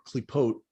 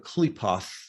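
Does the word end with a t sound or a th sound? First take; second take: t; th. First: The word ends with a plain t sound. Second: The word ends with a th sound. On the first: This is how it is said in Hebrew. "we call it a klipa or a klipot" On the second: This is how Western occultists say it. "as they call it"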